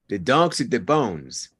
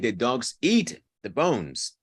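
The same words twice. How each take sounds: First: The nouns are prominent and the verb is reduced. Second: The verb is stressed as much as the nouns. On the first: The speaker calls it right. "the verb becomes squashed" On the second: The speaker calls it wrong. "That's not normal intonation"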